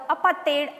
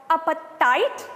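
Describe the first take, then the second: First: "apartheid" ending in "tate", not "tight"; "apartheid" with a long "ay" in its last syllable; African pronunciation. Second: Said in the usual way. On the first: Shown as a demonstration. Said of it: "as the Africans pronounce it". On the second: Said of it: "or apartheid as the Africans pronounce it".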